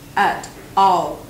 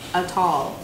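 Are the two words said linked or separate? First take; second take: separate; linked. First: The two words are said separately. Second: The two words are linked into one.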